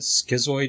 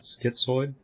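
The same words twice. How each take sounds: First: It is said with a plain s sound, no t. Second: It is said with a t before the s sound. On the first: The speaker calls it right. "there's no T in schizoid, so isn't it schizoid" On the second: The speaker calls it wrong. "not schizoid"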